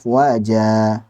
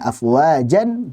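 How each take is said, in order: First: The word ends on a long a vowel. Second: The word ends with a final n sound. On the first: The reading stops on this word. "dibaca panjang dua harakat" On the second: The reading continues past this word. "suara nun sukun afwajan en"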